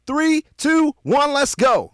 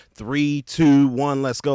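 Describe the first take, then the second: First: High, loud MC shout; full-force high-pitched party countdown; hype DJ countdown. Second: Said in the usual way. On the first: Shown as a demonstration. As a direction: count down to the drop and fire up the crowd. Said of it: "something like that". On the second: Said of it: "the so known".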